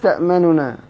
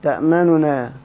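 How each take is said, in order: Both takes have the same delivery.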